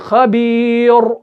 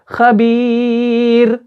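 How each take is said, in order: First: The final r is heavy, with rounded lips. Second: The final r is thin, with unrounded lips. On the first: The speaker calls it wrong. "ऐसे नहीं कर रहे हैं, हम मोटा नहीं पढ़ रहे हैं" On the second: The speaker calls it right. "बारीक पढ़ रहे हैं"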